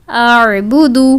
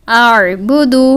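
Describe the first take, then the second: Both takes have the same delivery.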